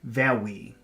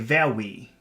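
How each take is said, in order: First: The R is made with rounded, kissing lips. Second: The same.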